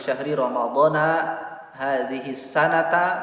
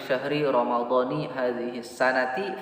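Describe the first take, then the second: First: Ramadhan and sanat end with an 'a' vowel. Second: Ramadhan and sanat end with an 'i' vowel. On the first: Ramadhan stays a non-inflecting noun. "Ketika dibaca ramadhana maka hadhihi sanata" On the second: Ramadhan is treated as an inflecting noun. "menjadi bisa dibaca ni"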